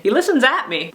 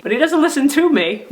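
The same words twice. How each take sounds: First: "at" lifted out of the line; stress on AT. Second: Higher line punching "to"; stress on TO. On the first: Teacher complaining about Buddy's listening, stress on "at". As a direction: punch "at" as the fault. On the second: Teacher complaining about Buddy's listening, stress on "to". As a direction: hit "to" hard in contrast. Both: Shown as a demonstration. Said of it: "one way you don't listen".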